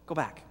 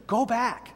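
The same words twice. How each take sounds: First: Said in the usual way. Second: Insistent, more forceful retold order; firmly persuading. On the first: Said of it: "now Naomi has said". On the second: Naomi persuading her daughters-in-law to leave, insistent. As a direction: urge them away firmly. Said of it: "Then she really persuades them".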